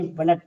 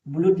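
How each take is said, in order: First: ब्लड with a short a sound, like blud; correct reading. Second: ब्लूड said with a long oo like blood misread; wrong reading. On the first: Teacher gives students the correct reading, short a. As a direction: say ब्लड with a short clipped a vowel. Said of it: "इसे ब्लड पढ़ेंगे". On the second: Teacher shows students the wrong reading, long oo. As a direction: stretch the vowel in ब्लूड as a long oo. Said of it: "नहीं पढ़ेंगे". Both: Shown as a demonstration.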